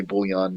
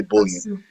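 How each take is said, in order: First: "bullion" said as bull-ee-AHN; alternative pronunciation. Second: "bullion" said as BULL-yun; anglicized pronunciation. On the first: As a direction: give "bullion" a French-style ending, bull-ee-ahn. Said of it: "I think you can say bullion". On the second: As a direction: say "bullion" in two syllables with a weak ending, bull-yun. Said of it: "But maybe they say bullion". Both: Shown as a demonstration.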